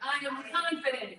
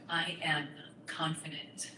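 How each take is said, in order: First: It is said a little louder. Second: It is said at normal volume.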